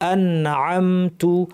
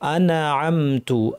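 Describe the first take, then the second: First: The n and m are held with smooth nasality. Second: The n and m are released with a bounce. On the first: The speaker calls it right. "নুন মিমের স্বাভাবিক গুন্না থাকবে এবং কলকলা হবে না" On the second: The speaker calls it wrong. "ভুলটা বলছি, ... এভাবে নুন মিম দুইটাতেই কলকলা হয়ে যায়"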